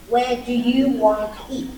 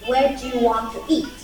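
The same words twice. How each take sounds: First: "Want to" is said as two full words. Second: "Want to" is linked and reduced to "wanna". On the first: "Instead of saying" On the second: "they usually use the allegiance like"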